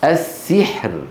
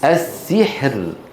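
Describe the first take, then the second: No difference in how they are said.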